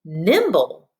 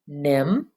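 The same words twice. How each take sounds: First: Nimble blended with no break; whole word. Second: Nim-ble broken by a long pause in the middle; syllable by syllable. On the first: Teacher confirming the pupils' word, Nimble said whole. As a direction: run both syllables together in Nimble. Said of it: "What is your word?". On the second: Teacher showing pupils the two parts, nim-ble split in two. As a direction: leave a clear gap inside nim-ble. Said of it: "what are your two parts?". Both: Shown as a demonstration.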